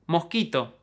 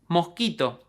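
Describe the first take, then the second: Both takes have the same delivery.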